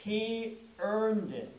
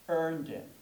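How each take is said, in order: First: "earned" drawn out slowly; slow stress on earned. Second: Said in the usual way. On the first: Shown as a demonstration. Preacher repeating the sermon title, slow on "earned". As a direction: dwell on "earned". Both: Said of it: "The title on this Palm Sunday morning is".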